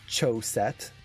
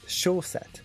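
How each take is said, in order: First: The word begins with a ch sound. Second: The word begins with an sh sound. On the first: The speaker calls it wrong. "it's not ch" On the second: The speaker calls it right. "So it's sh"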